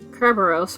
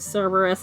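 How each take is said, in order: First: The name begins with a K sound. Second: The name begins with a C sound. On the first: This is the original way the name was said. The speaker calls it right. "it's a K sound" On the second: This is the familiar but not original way. The speaker calls it wrong. "not a C sound"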